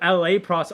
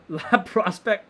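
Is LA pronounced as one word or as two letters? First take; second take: letters; word. First: LA is spelled out as two letters. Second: LA is said as one French-like word. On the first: It refers to Los Angeles. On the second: It sounds like a French word.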